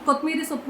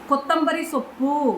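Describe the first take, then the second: First: It is said in the everyday colloquial form. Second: It is said in the pure standard form. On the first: This is how most people in the city say it. The speaker calls it wrong. "ಅಚ್ಚ ಕನ್ನಡದಲ್ಲಿ ಕೊತ್ತಂಬರಿ ಸೊಪ್ಪು ಅನ್ನಲ್ಲ" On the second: This is the form used in pure Kannada. The speaker calls it right. "ಅನ್ನುತ್ತಾರೆ"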